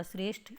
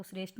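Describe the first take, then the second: First: श्रेष्ठ ending in aspirated ठ. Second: श्रेष्ठ ending in plain ट, as shresht; unaspirated T. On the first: Teacher gives the correction, श्रेष्ठ with aspirated ठ. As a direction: puff of breath on the ठ of श्रेष्ठ. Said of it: "ठ होता है". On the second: Teacher shows the mistake, श्रेष्ठ without aspiration. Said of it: "नहीं होता". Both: Shown as a demonstration.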